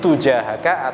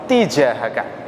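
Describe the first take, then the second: First: The first syllable has the vowel 'u'. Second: The first syllable has the vowel 'i'. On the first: "Bisa dengan mendomahkan ta" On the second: "bisa juga dengan mengkasrohkan ta"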